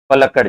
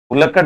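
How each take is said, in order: First: The first vowel sounds like 'a'. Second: The first vowel sounds like 'u'. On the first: The speaker calls it right. "पलक्कड़ जिला" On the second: The speaker calls it wrong. "पुलक्कड़ नहीं है"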